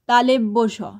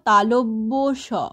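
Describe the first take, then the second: First: An extra e vowel follows the first syllable. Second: No extra vowel follows the first syllable. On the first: The speaker calls it wrong. "অনেকে বলি তালেব্য শ। না" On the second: The speaker calls it right. "বলবো তালব্য শ।"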